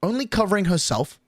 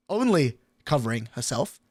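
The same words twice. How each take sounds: First: Said in the usual way. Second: Said again through a laugh, softer; laughing at how selfish she was; laughing repeat. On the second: Retold or imitated. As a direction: chuckle it out in disbelief.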